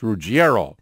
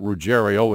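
First: The name is said with an Italian pronunciation. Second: The name is said with an Americanized pronunciation. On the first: This is the pronunciation the name has in Italian. "You have an Italian background, you know better" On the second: This is how the family and fans say the name. "his family pronounces it Ruggiero"

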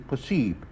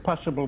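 First: It is said with French pronunciation. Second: It is said with English pronunciation.

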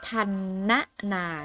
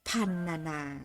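First: The middle syllable is said as a full syllable. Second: The middle syllable is reduced to a half sound. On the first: The speaker calls it wrong. "ไม่ต้องอ่านว่า" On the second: The speaker calls it right. "อ่านว่า"

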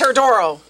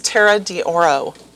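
First: The name is run together in a New York accent. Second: The name is said plainly, as separate words.

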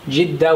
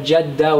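First: The first vowel is an i sound. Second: The first vowel is an a sound. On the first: "with a kasra" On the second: "with a fatha"

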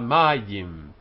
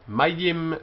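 First: The first vowel is lengthened. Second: The first vowel is short. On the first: The word is in pause at the end of the verse. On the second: The word stands in the middle of the verse.

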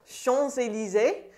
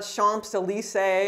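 First: No P sound; the S links into Élysées. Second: A P sound is pronounced in Champs. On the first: The speaker calls it right. "you have a liaison between the S and the E" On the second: The speaker calls it wrong. "So you don't say the P, it's not Champs-Élysées"

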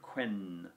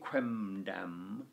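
First: The consonant before dam is an n. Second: The consonant before dam is an m. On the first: The speaker calls it right. "so it went quendam" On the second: The speaker calls it wrong. "the Romans sort of struggled with going quemdam"

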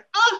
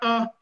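First: The vowel is said with a higher pitch. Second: The vowel is said with a lower pitch. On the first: The speaker calls it right. "c'est A, ça monte plus" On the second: The speaker calls it wrong. "Ce n'est pas A"

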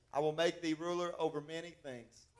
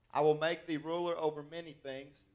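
Both takes have the same delivery.

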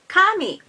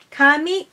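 First: It carries the pitch accent of the word for god. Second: It carries the pitch accent of the word for hair. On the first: The word means god. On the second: The word means hair or paper. "hair or paper"

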